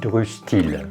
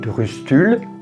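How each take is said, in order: First: The last syllable has an 'i' vowel. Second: The last syllable has a rounded 'u' vowel. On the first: "ou on dit Drustil" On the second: "On dit Drustul"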